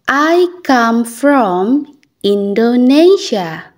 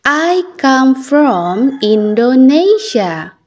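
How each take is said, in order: Both takes have the same delivery.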